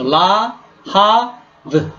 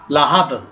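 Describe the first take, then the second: First: "la ha v" split into slow separate syllables; sounded out by syllable. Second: Said in the usual way. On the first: Shown as a demonstration. Hebrew teacher sounding out a word for students, syllable by syllable. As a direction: break "la ha v" apart, one syllable at a time. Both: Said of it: "So la ha v".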